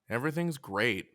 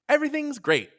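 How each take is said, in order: First: It sounds miserable, as if things are terrible. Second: It sounds genuinely cheerful and upbeat.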